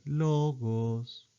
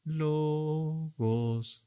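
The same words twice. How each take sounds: First: "logos" lifted then dropped; contrasting pitch. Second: Soft "Logos", only a small rise; "Logos" rising just a third, softly; grave pitch accent. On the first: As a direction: sing "logos" rising then falling. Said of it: "Si fuera así". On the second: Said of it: "El grave sube solo una tercera". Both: Shown as a demonstration.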